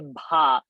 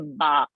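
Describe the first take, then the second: First: The b is said with a strong breath. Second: The b is said without a breath of air. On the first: The speaker calls it right. "bha is a mahaprana" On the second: The speaker calls it wrong. "We should not say ba"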